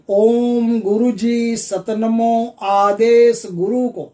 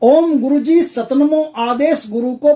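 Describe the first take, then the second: First: It is said slowly and deliberately. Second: It is said loudly and quickly. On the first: "आप धीरे धीरे बोल देता हूं" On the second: "आप जोर जोर से बोल दिया"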